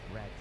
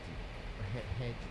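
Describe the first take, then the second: First: The word begins with an English r sound. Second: The word begins with a breathy h sound. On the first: The speaker calls it right. "vermelho, red" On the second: The speaker calls it wrong. "Ela fala red, head"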